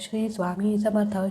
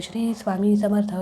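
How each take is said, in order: The two takes are said the same way.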